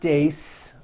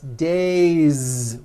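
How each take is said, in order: First: The word ends with an unvoiced S sound. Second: The word ends with a voiced Z sound. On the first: The speaker calls it wrong. "It's not days, unvoiced" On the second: The speaker calls it right. "with a voiced Z ending"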